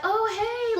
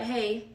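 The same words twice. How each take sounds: First: High-pitched bubbly greeting; bubbly, sweet. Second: Monotone greeting. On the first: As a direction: imitate a sweet, gushing hello way up high. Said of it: "really bubbly, really sweet". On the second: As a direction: imitate an unenthusiastic, monotone hello. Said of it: "really monotone". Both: Retold or imitated.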